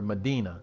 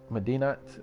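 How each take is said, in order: First: The word ends on a vowel, no T. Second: The word ends with a clear T sound. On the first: "Or do I ignore the T" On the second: "Do I say the T?"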